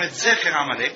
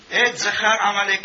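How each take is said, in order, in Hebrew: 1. המילה האמצעית נאמרת עם תנועות 'e'. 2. המילה האמצעית נאמרת עם תנועות 'a'. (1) "במקום" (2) "היה לו מורה משובש ... אז הוא קרא לו"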